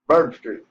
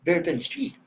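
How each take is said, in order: First: BOURBON STREET run together as BUR-bn street, falling; louder, squashed local "Bourbon Street". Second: BOURBON STREET over-pronounced, higher, with rising tune; prissy, spelled-out "Bourbon Street"; outsider's Bourbon Street. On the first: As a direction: punch "Bourbon" loud and let it drop. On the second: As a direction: say "Bourbon" carefully as BEER-pin, lilting up. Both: Shown as a demonstration. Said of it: "had to teach her how to talk".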